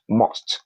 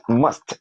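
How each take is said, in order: First: "must" with a rounded o, like "most"; mispronunciation. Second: "must" with a short open uh; correct pronunciation. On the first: Teacher showing learners what to avoid, mispronunciation. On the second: Teacher modelling the word for learners, correct pronunciation. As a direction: say "must" unrounded, close to "mast". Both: Shown as a demonstration. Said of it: "not must".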